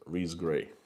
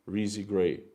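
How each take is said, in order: First: The first name has one syllable. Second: The first name has two syllables. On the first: The speaker calls it right. "it's pronounced without Reese" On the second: The speaker calls it wrong. "I've been saying Reezy Gray"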